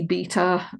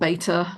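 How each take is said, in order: First: It is said with a non-American accent. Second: It is said with an American accent.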